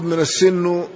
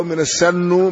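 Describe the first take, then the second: First: السن said as as-sinnu, with an i; kasra on السن. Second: السن said as as-sannu, with an a; fatha on السن. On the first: Teacher contrasts two readings, السن with a kasra. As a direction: give السن a short i after the doubled s. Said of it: "بالكسر". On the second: Teacher contrasts two readings, السن with a fatha. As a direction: give السن a short a after the doubled s. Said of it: "بالفتح". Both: Shown as a demonstration.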